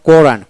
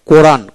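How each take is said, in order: Both takes have the same delivery.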